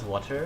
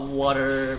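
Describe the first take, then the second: First: The middle T is said as a clear T. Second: The middle T sounds like a soft D. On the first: This is the speaker's usual way of talking. "I normally pronounce them as water" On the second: The speaker has picked up a friend's way of talking. "my T sounds starts to sound like D when I'm with you"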